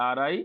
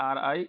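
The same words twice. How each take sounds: The two takes are said the same way.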